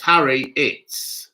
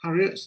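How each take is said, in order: First: "Harry Itz" slowly, as two separate words; "Harry Itz", split after Harry and drawn out; split-name pronunciation. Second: "Harriet" run together as one name; "Harriet" as one word, ending on a t; joined-up pronunciation. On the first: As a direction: sound out "Harry Itz" with a clear ts ending. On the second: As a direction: say "Harriet" smoothly, no break before the last syllable. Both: Shown as a demonstration. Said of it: "my name is pronounced Harry Itz".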